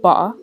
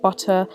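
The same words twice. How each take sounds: First: The middle consonant is a glottal stop. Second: The middle consonant is a clear T sound.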